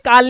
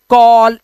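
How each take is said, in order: First: The vowel is an open 'ah' sound. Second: The vowel is a rounded 'aw' sound. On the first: The speaker calls it wrong. "इसलिए ये काल नहीं होता" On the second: The speaker calls it right. "अब सारे मेरे साथ बोलो"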